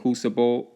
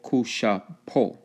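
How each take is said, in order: First: The middle consonant is a plain s sound. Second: The middle consonant is a sh sound.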